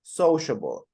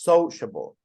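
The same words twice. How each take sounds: First: The stress is on the first syllable. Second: The same.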